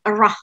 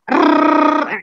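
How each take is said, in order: First: The r is smooth with no trill. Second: The r is a long rolled trill. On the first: This is how the sound is said in English. "Tapi kalau bahasa Inggris enggak" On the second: This is how the sound is said in Indonesian. "Bu Guru bilang, ayo murid Ibu ini baca"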